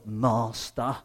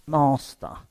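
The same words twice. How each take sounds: First: "Master." softer, lifting at the end; a meek servant's "Master." with a rising finish; submissive servant. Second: A flat, formal call of Master; addressing God as master. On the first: Imagined Jesus dutifully to his master: soft, meek. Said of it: "It's not almost like, "I'm doing your will". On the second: Jesus on the cross, not calling God: formal Master. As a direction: say "Master." as a bare title, falling. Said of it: "he doesn't... say". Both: Retold or imitated.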